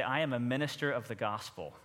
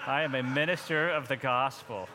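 First: Said in the usual way. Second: A little more passion, lightly. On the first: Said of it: "Look at your neighbor ... and say". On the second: Shown as a demonstration. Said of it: "say it with a little more passion".

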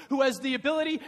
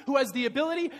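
The two takes are said the same way.

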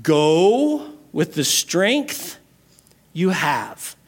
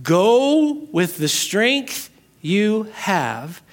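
First: Each word drawn out slowly, "Go" rising; slow, weighty. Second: "Go" drawn out long and rising, every word slow; even slower, stretched. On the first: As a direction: lay it down slowly and solemnly. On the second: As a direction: savour it, very slowly. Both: Shown as a demonstration. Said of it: "We're gonna come back to that".

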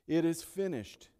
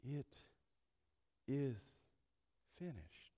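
First: "It is finished" rung out loud and high; proclaimed. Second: Long pause after It and after is, finished dropped soft. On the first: Pastor proclaiming Christ's victory cry, loud and ringing. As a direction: proclaim it to the back row. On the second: Pastor lingering over Christ's last words, spaced and fading. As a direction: let "It", "is", "finished" each hang alone before "finished" fades away. Preacher spacing each word. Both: Acted.

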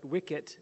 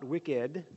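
First: "wicket" ending in a crisp t; right word. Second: "wicked" with a d, meaning evil; wrong word. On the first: Teacher giving the right word, "wicket" with a crisp t. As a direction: say "wicket" with a sharp final t. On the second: Teacher contrasting the wrong word for the class, "wicked" with d. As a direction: say "wicked" ending in a clear d. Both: Shown as a demonstration. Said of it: "Not wicked, evil, but wicket".

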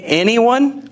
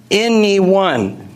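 First: Said in the usual way. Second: Anyone drawn out slowly with a falling tune; stress on anyone. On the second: Shown as a demonstration. Pastor insisting to listeners that Jesus meant anyone, stressed. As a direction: lean into anyone and let it land. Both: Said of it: "I'm pretty sure he meant".

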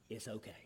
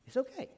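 First: Soft breathy whisper; whispered reassurance. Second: Gentle lilting reassurance. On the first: Reassuring someone the issue can wait, in a whisper. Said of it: "soothing reassurance". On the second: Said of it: "repeated reassurance". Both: Shown as a demonstration.

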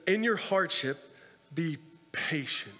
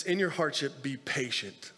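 First: Slow emphatic repeat. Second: Said in the usual way. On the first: Shown as a demonstration. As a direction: let "be patient" sink in slowly. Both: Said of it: "He says".

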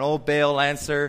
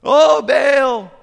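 First: Said in the usual way. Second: Much higher, loud desperate shout; yelling louder. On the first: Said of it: "So they're dancing around". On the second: Retold or imitated. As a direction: cry out to the idol at full voice. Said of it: "they all start yelling louder".

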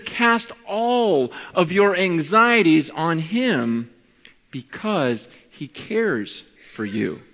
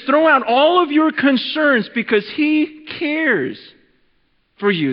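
First: Gentle reading. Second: Higher, slow, pressing paraphrase; emphatic paraphrase. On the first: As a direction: lay the verse down gently and slowly. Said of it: "The Bible says in First Peter five seven". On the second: Pastor restating the verse to the crowd, higher and emphatic. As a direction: urge them to throw their worries out. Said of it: "He says". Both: Shown as a demonstration.

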